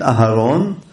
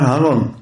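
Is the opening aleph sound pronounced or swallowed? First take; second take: pronounced; swallowed. First: The opening aleph vowel is clearly pronounced. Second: The opening aleph vowel is swallowed. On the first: The speaker calls it right. "במקום להגיד אהרון" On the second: The speaker calls it wrong. "בלעת האלף"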